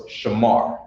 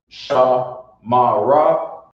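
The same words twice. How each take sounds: First: "Shamar" said as one smooth word; correct pronunciation. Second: Slow, "Sha Ma Ra" split into three stiff beats; wrong choppy syllables. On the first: Teacher giving the right reading. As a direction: flow "Shamar" together. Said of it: "then you know it's". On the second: Teacher showing the wrong reading. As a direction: chop "Sha Ma Ra" apart slowly. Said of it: "and you say". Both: Shown as a demonstration.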